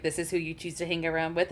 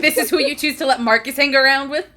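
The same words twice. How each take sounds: First: Quiet, quick disdainful aside; dry disdain. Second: Louder, incredulous rising question; exasperated disbelief. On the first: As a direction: mutter the judgment under the breath. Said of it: "He looks at Nigel and Marcus like". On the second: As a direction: throw up your hands at Nigel. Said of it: "looks at Nigel like". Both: Acted.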